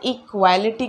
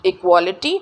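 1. 'equ' के बाद का स्वर 'ah' ध्वनि है। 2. 'equ' के बाद का स्वर 'o' ध्वनि है। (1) "क्योंकि यहाँ पे ए है तो गलती से इसको इक्वालिटी बोला जाता है" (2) "इक्वालिटी नॉट इक्वालिटी"

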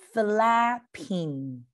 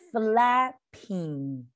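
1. 这两部分顺畅地连成一个词来说。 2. 这两部分顺畅地连成一个词来说。

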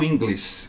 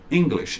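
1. A palavra não termina com um som de 'sh'. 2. A palavra termina com um som de 'sh' claro. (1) "E não English, como algumas pessoas falam quando estão aprendendo inglês" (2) "Todas as palavras que terminam com SH, você vai dar o nosso som do X"

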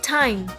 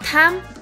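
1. Từ này có âm tiếng Anh chuẩn. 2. Từ này có âm méo mó, không chuẩn.

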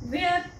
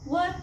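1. स्वर दीर्घ आणि मोकळा आहे, 'wair' सारखा. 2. स्वर छोटा आणि मध्यवर्ती आहे, 'wur' सारखा. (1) "बरेचसे विद्यार्थी वेअरच सांग उच्चार करतात" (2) "वेअरच्या ऐवजी वर उच्चार करा"

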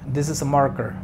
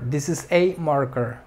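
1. El artículo tiene un sonido 'uh' reducido. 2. El artículo tiene un sonido 'ay' completo. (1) "cuando estás hablando de manera fluida, normalmente no lo pronuncias como A, sino como A" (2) "Si quieres enfatizar en que solamente es uno, eh, la letra A o el artículo A se pronuncia como A"

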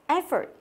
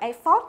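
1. Giọng đi xuống suốt từ. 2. Giọng giữ bằng phẳng suốt từ. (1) "cái intonation của từ nó đi xuống" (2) "thay vì đọc là effort nhớ không?"

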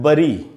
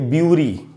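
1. पहला स्वर 'uh' जैसा लगता है। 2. पहला स्वर 'you' जैसा लगता है। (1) "कुछ लोग इसको पढ़ते हैं बरी" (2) "बहुत लोग तो इसको पढ़ेंगे ब्यूरी"

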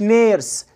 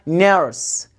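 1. الحرف المتحرك صوت ee طويل. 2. الحرف المتحرك صوت er مع الراء. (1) "ما اسمهاش نيرس" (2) "اسمها نيرس"

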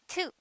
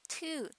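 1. 語尾の母音は短くする。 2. 語尾の母音を長く伸ばす。

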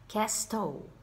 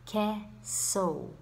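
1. O som do t é pronunciado no meio. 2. O som do t é mudo no meio. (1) "Castle? No" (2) "I won't pronounce it"

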